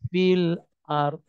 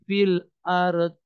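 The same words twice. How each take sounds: First: The final d is held without any vowel. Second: The final d is followed by an e vowel. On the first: The speaker calls it right. "mau nyebut huruf terakhir dotnya tapi tidak terucap" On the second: The speaker calls it wrong. "tidak pula dibaca e"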